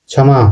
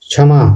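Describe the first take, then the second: The two takes are said the same way.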